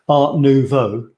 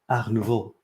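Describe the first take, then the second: First: It is said with an English accent. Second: It is said with a French accent. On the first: "it sounds really, really crap" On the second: "you might think I'm being pretentious and and that I've got a bad French accent"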